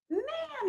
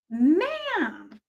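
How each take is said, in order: First: Whispered, much higher and softer; a stage whisper of mock disapproval. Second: Said in the usual way. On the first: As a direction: hiss the word ma'am as a whisper. Repeats it in a whisper.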